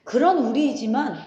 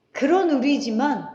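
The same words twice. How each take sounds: The two takes are said the same way.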